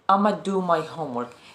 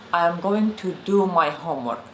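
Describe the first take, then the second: First: 'I am going to' is squeezed into 'I'ma'. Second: Every word of 'I am going to' is said fully. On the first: "a very, very contracted version of it" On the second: "not I am going to"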